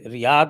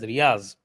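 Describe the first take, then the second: First: The final consonant is a soft 'dh' sound. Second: The final consonant is a 'z' sound. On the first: This is the Arabic-style pronunciation. "Riyadh, what you say" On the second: This is the Urdu pronunciation. "actually pronounced in Urdu as Riyaz"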